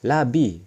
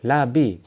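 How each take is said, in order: Both takes have the same delivery.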